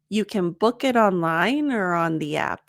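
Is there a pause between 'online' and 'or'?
no. Online and or are linked without a pause.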